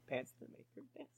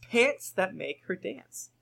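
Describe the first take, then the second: First: Whispered quick savoring echo; barely audible muttered repeat; amused whisper. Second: Said in the usual way. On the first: Shown as a demonstration. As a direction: repeat it under the breath, faster.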